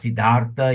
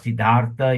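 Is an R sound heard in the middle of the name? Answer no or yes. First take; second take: yes; yes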